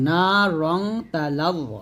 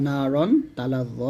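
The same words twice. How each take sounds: First: রং ending in a nasal "ng" hum instead of n; n turned to ghunnah. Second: Said in the usual way. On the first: Shown as a demonstration. Teacher showing how it is recited, nasal "ng" on রং. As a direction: say রং with a hummed "ng", not রন. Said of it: "রন বলতে হবে রং". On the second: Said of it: "র আলিফ দুই জবর রন".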